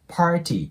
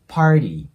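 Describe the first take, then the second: First: The middle consonant sounds like a t. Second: The middle consonant sounds like a d. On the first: "party って発音しても全然いいんですけど" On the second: "基本的にd の音に変わることが多い"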